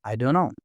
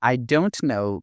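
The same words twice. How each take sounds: First: "I don't know" blended into "I dunno"; quick linked "I don't know", the t dropped; connected speech. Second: "I don't know" with each word distinct; unreduced, carefully spaced "I don't know"; careful full form. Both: Shown as a demonstration.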